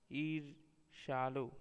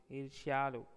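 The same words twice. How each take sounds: First: ईर्ष्यालु slowly, as "eer-shaalu"; slow ईर्ष्यालु with no y glide; wrong pronunciation. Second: Said in the usual way. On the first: Shown as a demonstration. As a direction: drop the y from ईर्ष्यालु, pausing after "eer". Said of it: "अशुद्ध शब्द". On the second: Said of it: "शुद्ध शब्द".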